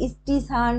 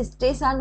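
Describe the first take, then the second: First: স্টেশন said as "is-ti-shan"; vowel added in front. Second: Said in the usual way. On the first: Shown as a demonstration. Teacher showing a vowel at word start, স্টেশন as "istishan". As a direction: colloquial স্টেশন with leading "i": "istishan". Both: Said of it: "শব্দের আগে স্বরধ্বনি কিভাবে এসছে".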